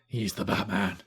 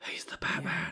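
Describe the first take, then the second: First: It is said in a full, unwhispered voice. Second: It is said in a whispery voice.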